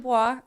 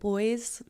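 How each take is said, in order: First: It does not sound like English 'boys'. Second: It sounds like the English word 'boys'. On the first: The speaker calls it right. "it's actually Bois" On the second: The speaker calls it wrong. "most people are like pronounce it like boys"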